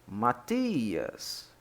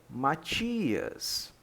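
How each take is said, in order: No difference in how they are said.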